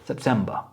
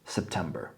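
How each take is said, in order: First: British accent, with the final r not pronounced. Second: American accent, with the final r pronounced. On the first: "in British" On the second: "In American it's"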